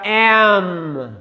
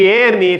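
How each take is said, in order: First: M said as English "em", slow; English letter name. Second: M said as "éme" with final vowel; Portuguese letter name. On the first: Teacher gives the English "em" slowly to students. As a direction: close on the M: "em". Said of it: "fica M". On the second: Teacher shows the Portuguese "éme" to avoid. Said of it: "Em vez de M". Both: Shown as a demonstration.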